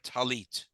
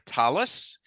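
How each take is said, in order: First: It is said with Sephardic Hebrew pronunciation. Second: It is said with Ashkenazi Hebrew pronunciation. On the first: "like Shabbat or Talit" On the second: "like we say Shabbos or Talis"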